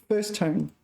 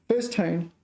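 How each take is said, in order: Both takes have the same delivery.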